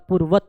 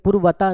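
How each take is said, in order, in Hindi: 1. शब्द सीधे एक व्यंजन पर खत्म होता है। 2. शब्द के अंत में एक अतिरिक्त स्वर जुड़ा होता है। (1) "पूर्वत होता है" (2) "पूर्वता नहीं होता"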